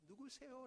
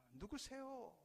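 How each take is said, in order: First: Echo from afar. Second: Puzzled question. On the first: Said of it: "저기서". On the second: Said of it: "어리둥절해서 묻습니다". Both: Acted.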